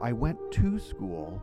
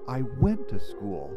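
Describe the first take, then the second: First: The word to carries the stress. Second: The word went carries the stress.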